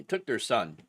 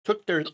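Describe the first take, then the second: First: Said in the usual way. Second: Words broken by a hiccup; hiccup cuts in. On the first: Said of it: "excuse me". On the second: Real, not acted. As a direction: hiccup jolts the phrase. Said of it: "like, the hiccups".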